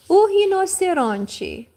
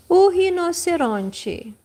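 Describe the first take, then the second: No difference in how they are said.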